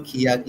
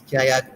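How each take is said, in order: First: "kiyak" with an ee sound first; rejected kiyak pronunciation. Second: "kayak" with an open a after the k; usual kayak pronunciation. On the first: Teacher showing learners the wrong version, "kiyak" said kee-yak. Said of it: "it's not kiyak". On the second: Teacher correcting the learner's version, "kayak" starting with ka. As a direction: say "kayak" with ka first, not kee. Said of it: "it's kayak that we usually write it". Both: Shown as a demonstration.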